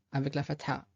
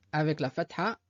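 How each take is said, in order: Both takes have the same delivery.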